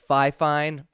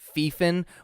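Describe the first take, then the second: First: The first syllable sounds like 'fie'. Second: The first syllable sounds like 'fee'. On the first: "instead of fi fine"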